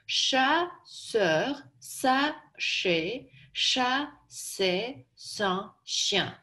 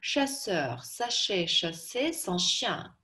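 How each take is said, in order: First: Each syllable is spoken separately and distinctly. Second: It is spoken at a quicker pace. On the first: "По слогам" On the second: "Теперь побыстрее"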